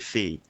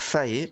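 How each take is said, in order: First: The word ends in a French 'é' vowel. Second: The word ends in an English-style 'ay' vowel. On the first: The speaker calls it right. "la bonne prononciation c'est Fée" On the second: The speaker calls it wrong. "vous risquez de m'entendre dire Fae"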